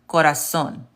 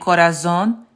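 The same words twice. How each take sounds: First: The z is said as a hissing s. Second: The z is said as a buzzing z. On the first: The speaker calls it right. "it's actually pronounced corazon with an S" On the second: The speaker calls it wrong. "instead of saying corazon"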